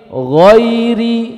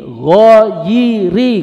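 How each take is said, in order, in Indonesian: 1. Bunyi y adalah peluncur halus tanpa vokal. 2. Bunyi y punya vokal tambahan sendiri. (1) "Tapi ghairi" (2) "Menghidupkan harokat ya sukun jadi ghairi, ghairi, nggak boleh"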